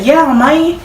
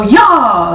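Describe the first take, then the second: First: "Yeah, man" with a clear "eh", rising; ordinary "yeah". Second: Southern "Y'all" for yeah, drawn out and falling; Southern accent. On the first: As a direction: say "Yeah, man" with a lift, higher. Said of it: "Like, you say". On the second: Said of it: "you got an accent". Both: Shown as a demonstration.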